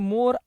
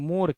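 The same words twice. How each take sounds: First: The o vowel is closed, lips nearly together. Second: The o vowel is open, lips wide apart. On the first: It names a bird, the peacock. "સંવૃતમાં તો ઈ એક પક્ષી બને" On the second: It names mango blossom. "વિવૃત નિશાની સાથે જ્યારે લખો ને ત્યારે ઈ બને આંબાનો કોર"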